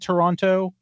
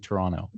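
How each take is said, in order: First: The second t is clearly pronounced. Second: The second t is dropped. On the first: "Are there Canadians who, who say" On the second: "do pretty much all Canadians say"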